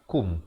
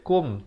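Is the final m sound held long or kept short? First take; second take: short; held long. First: The final m sound is kept short. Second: The final m sound is held long. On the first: The speaker calls it right. "bacaan yang betul ialah kum" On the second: The speaker calls it wrong. "jangan baca kum"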